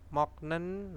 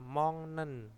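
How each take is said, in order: First: A k stop and a break come before the n. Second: A nasal ng sound comes before the n. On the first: The speaker calls it wrong. "nah itu kan ada jeda" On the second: The speaker calls it right. "moknen dibaca apa? Mongnen. Nah, ini bacanya adalah eng ya"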